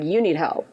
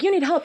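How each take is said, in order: First: It sounds scornful and judgmental. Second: It sounds caring and concerned.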